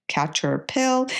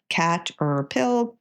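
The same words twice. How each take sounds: First: "catcher pill" run together into one smooth word; blended. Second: "cat er pill" said slowly, syllable by syllable; syllables kept apart. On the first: A tutor shows the blended word after sounding it out. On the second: A tutor models slow sounding-out for a child. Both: Shown as a demonstration. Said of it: "blending the three syllables".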